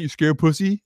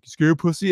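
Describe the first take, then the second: First: A rising, teasing jab at the end; mock taunt. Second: The same rising, teasing jab repeated; mock taunt. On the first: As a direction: imitate the roommate goading him. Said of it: "he always go to that". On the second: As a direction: imitate the roommate's usual goad. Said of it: "He'd be like".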